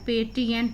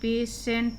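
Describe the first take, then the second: First: The middle consonant is a 't' sound. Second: The middle consonant is a 'sh' sound. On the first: The speaker calls it wrong. "पेटिएंट नहीं पढ़ेंगे हम इसको" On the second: The speaker calls it right. "टी के बाद आई ई आता है तो उसका उच्चारण सा हो जाता है"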